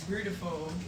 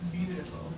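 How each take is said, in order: First: The word is said with an R sound. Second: The word is said without an R sound. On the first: It is the private pet name they call each other. "our beautiful" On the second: It is the ordinary word. "not beautiful"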